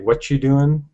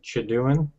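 First: The word are is dropped from the phrase. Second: The first words blur into a single short syllable. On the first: "And then we say" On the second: "And then"

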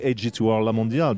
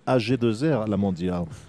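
First: The name is said with English pronunciation. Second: The name is said with French pronunciation. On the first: The speaker calls it wrong. "you should never say AG2R La Mondiale because it's a French company" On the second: The speaker calls it right. "so you should call them AG2R La Mondiale"

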